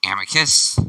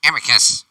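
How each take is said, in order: First: Put-on first try at a snobby rich kid; a half-formed snobby call; rejected snobby voice. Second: Sharp, prim call of a name; snobby rich kid. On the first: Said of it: "No, that doesn't sound right either". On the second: Acted. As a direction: call him out like a haughty noble. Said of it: "Alright, let's do that one".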